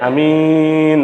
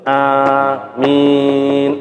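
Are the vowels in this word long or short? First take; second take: short; long. First: The vowels are said short. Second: Both vowels are drawn out long. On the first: The speaker calls it wrong. "hanya pendek" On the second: The speaker calls it right. "A dua, min itu dua"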